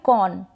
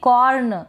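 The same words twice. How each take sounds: First: The r is not sounded at all. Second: The r is sounded fully and strongly. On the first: The speaker calls it right. "तो यहाँ पर नहीं किया" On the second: The speaker calls it wrong. "र का पूरा sound निकाल देंगे"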